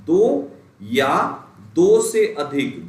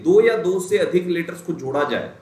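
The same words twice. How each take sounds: First: दो या दो से अधिक slowed, each word spaced and pressed; slow emphasis. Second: Said in the usual way. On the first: Shown as a demonstration. Teacher hammering the definition to students, slow and stressed. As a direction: drag out दो या दो से अधिक so it sinks in. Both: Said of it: "ध्यान Neesham समझते चलिएगा".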